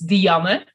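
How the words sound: The name is said the Dutch way. The speaker calls it right. "If you want to pronounce it in Dutch"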